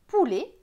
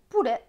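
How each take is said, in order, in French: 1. La voyelle finale est fermée, comme é. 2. La voyelle finale est ouverte, comme è.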